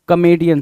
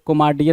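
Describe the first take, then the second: First: The second syllable sounds like 'mee'. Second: The second syllable sounds like 'mar'. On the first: The speaker calls it right. "कॉमेडियन is the right answer" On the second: The speaker calls it wrong. "कोमार्डियन नहीं"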